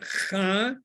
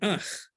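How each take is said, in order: First: The vowel follows the consonant sound. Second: The vowel precedes the consonant sound. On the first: The speaker calls it wrong. "It's not cha" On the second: The speaker calls it right. "but ach"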